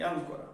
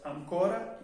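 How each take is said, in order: First: "ancora" stressed AN-co-ra; stress on first A. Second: "ancora" stressed an-CO-ra. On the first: Teacher introducing the contrast, second ancora stressed on A. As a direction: hit the opening syllable of "ancora". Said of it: "el acento en la A". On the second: Teacher introducing an example, first ancora stressed on O. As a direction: hit the middle syllable of "ancora". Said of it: "el acento en la O". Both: Shown as a demonstration.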